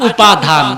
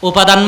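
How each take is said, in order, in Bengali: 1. মাঝের d ধ্বনিতে শ্বাসযুক্ত চাপ আছে। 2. মাঝের d ধ্বনিটি সাধারণ, কোনো ফুঁ ছাড়া। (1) "একটু করে ধাক্কা দিয়ে উচ্চারণ করলেন ধ" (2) "উপাদান মানে উপকরণ"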